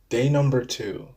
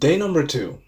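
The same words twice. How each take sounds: First: It is said flatly, without enthusiasm. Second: It is said with lively enthusiasm.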